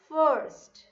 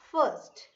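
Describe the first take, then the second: First: The word is said with an R sound. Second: The word is said without an R sound. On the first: The speaker calls it right. "So R sound has to be there" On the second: The speaker calls it wrong. "It's not first"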